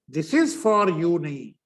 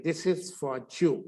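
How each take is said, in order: First: This is for you with plain you, marked wrong. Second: Jew with a j sound at the start; correct you. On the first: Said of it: "यू भी गलत बोल रहे हो". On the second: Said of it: "इस करके जे यू बोलना". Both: Shown as a demonstration.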